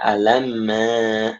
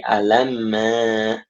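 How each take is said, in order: First: The letter names are run together as one word. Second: The letter names are run together as one word.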